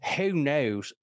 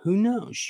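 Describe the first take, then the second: First: It is said in a put-on West Virginia accent. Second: It is said in a neutral, ordinary accent.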